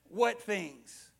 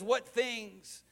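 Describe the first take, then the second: First: It is said with a sly, sarcastic tone. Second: It is said casually, with a dismissive shrug.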